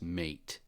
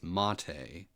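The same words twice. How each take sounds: First: It sounds like the English word mate. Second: It sounds like the name of the tea. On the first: This is how most people say it. The speaker calls it wrong. "everybody says mate" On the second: This is the intended name. The speaker calls it right. "but it is mate, like the tea"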